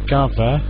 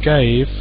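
First: The word ends with an extra vowel sound. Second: The word ends without an extra vowel sound. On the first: The speaker calls it wrong. "But you might say gave. Then it would be wrong" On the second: The speaker calls it right. "We don't pronounce the E"

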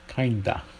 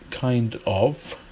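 First: Of is reduced to a single vowel. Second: Of is said as a full word. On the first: This is the American form. "Kinda. It's kinda good" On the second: This is the British form. "British people don't say kinda"

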